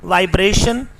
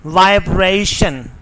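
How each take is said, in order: First: "vibration" with "breh", a pure vowel; Pakistani pronunciation. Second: "vibration" with a gliding "bray"; British pronunciation. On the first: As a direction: say vibration as "vai-breh-shun". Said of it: "This is not". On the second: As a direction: say vibration as "vai-breh-ee-shun". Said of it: "the correct pronunciation is". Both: Shown as a demonstration.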